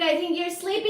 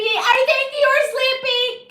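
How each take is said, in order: First: Said in the usual way. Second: High loud slow teasing repeat; teasing sing-song. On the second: Pretend. Streamer teasing a sleepy viewer, loud slow sing-song. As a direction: stretch it out to tease.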